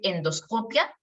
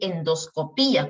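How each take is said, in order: First: The stress falls on the syllable co. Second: The stress falls on the syllable pi.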